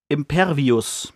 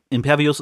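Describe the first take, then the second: First: Drawn-out, slow spell incantation; casting a spell. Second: Said in the usual way. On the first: Retold or imitated. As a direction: intone the spell word Impervius slowly. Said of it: "und sagt". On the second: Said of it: "Impervius ist ein".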